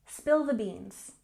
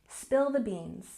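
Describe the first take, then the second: No difference in how they are said.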